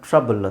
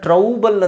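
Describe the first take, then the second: First: The first vowel sounds like 'uh'. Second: The first vowel sounds like 'ow'. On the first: The speaker calls it right. "ಇದನ್ನು ಟ್ರಬಲ್ ಅಂತ ಹೇಳಬೇಕು" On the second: The speaker calls it wrong. "ಇದನ್ನು ಟ್ರೌಬಲ್ ಅಂತ ಹೇಳೋಕ್ಕಾಗಲ್ಲ"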